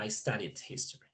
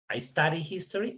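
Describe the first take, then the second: First: "studied" ending with a small explosive d; final d burst. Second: Said in the usual way. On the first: Shown as a demonstration. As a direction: pop the d at the end of "studied". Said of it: "hice una pequeña explosión al final". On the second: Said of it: "Las dos son diferentes".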